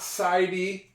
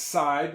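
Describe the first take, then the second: First: An extra vowel sound is said at the end. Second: The word ends without any extra vowel sound. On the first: The speaker calls it wrong. "It's not sidey" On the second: The speaker calls it right. "the E is silent"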